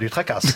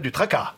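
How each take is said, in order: First: The word ends with an audible s sound. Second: The word ends in an a sound, s silent. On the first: The speaker calls it wrong. "Pas du tracasse" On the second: The speaker calls it right. "les mots qui se terminent en A-S se prononcent A"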